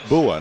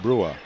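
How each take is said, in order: First: There is no r sound after the b. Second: An r sound follows the b. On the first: The speaker calls it right. "I said Bua" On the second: The speaker calls it wrong. "not Brua"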